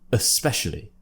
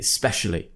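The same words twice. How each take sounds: First: The first vowel is a weak schwa. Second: The first vowel is dropped completely. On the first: "you could also relax it with the schwa sound" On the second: "extremely common for people just to say especially"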